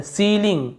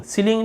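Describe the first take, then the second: First: सीलिंग with a long 'ee', 'see-ling'; सीलिंग said as SEE-ling. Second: सीलिंग with a short first vowel, 'sil-ing'; सीलिंग said as SIL-ing. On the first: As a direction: draw out the first vowel of सीलिंग. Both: Shown as a demonstration. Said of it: "सीलिंग नहीं बोल रहे हैं".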